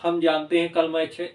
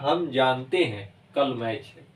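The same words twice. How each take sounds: First: It is read straight through without a pause. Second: It has a pause between the two clauses. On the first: The speaker calls it wrong. "ऐसे पढ़ेंगे ... तो ये अस्पष्ट" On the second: The speaker calls it right. "ये ऐसे होगा ... इनमें रुकावट है"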